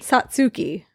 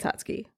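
First: The name is said slowly, every syllable clear. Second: The name is said quickly, syllables run together.

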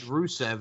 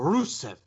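First: The name is said in a plain American accent. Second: The name is said in a put-on foreign accent. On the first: She is speaking normally without her put-on persona. "you just said Rusev" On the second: She suddenly slips back into her put-on persona. "and then you go, Rusev"

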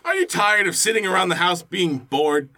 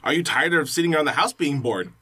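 First: It ends with a rising, question-like tune. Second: It ends flat and falling, like a statement.

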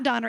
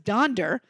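First: The middle has only an 'n' sound. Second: The middle has an 'n' then a 'd' sound. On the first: The speaker calls it wrong. "it's not Donner" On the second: The speaker calls it right. "it's Donder"

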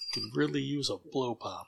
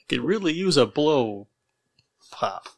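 First: The sentence is said at a normal pace. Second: The sentence is said at a slower pace.

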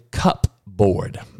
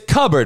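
First: The P sound in the middle is pronounced. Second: The P sound in the middle is silent. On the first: The speaker calls it wrong. "what the fuck did you just say?" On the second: The speaker calls it right. "We don't pronounce the P"

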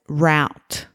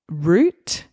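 First: The word rhymes with out. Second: The word rhymes with boot. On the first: "SA pronounced it as route" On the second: "So I would say root"

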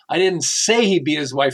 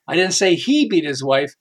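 First: The stress is on the word say. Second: The stress is on the word beat.

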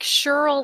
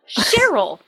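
First: The name is said with one syllable. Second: The name is said with two syllables. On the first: The speaker calls it wrong. "like short for Shirley" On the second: The speaker calls it right. "It's two syllables"

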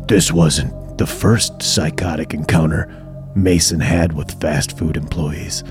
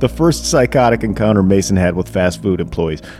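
First: It is read in a scary voice. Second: It is read in a normal voice.

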